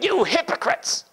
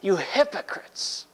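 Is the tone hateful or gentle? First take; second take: hateful; gentle. First: It is said in a hateful, angry tone. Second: It is said in a gentle, loving tone.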